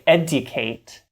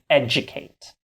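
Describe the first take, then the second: First: The middle sound is a clear d. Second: The middle sound is a soft j. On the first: "unless you're really posh like the Queen of England and say" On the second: "We say educate"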